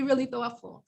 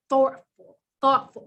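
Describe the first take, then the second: First: Said in the usual way. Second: Real New York vowel in "thoughtful"; New York accent. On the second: Real, not acted. Presenter urging people to step back, New York accent on "thoughtful". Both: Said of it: "My New York accent just really came out".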